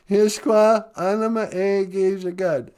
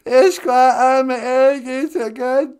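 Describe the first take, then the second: First: Said in the usual way. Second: Slow, tearful Ojibwe word; crying voice. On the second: Acted. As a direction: say Ishkwa with a fake sob. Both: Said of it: "Can you take the cry out?".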